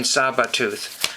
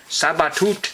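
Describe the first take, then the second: First: Said in the usual way. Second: "Sabatooth" said as SAH-ba-toot, open a, ending on a t with a rise; the artist's own pronunciation. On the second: Retold or imitated. Record collector trying the artist's own way of saying "Sabatooth", rising at the end. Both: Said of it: "I think that's how he says it".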